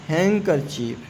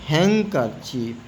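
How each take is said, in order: No difference in how they are said.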